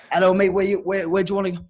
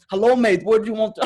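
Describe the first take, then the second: First: Tentative first stab at a Russian cabbie; higher, louder, half-hearted Russian accent; attempted Russian accent. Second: High, loud Russian cabbie attempt; hammed-up, amateur Russian accent; bad Russian accent. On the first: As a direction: stumble into a poor Russian accent. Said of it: "I'm not even gonna do an accent". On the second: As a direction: push the Russian accent harder, badly. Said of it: "'cause I'm shit at accents".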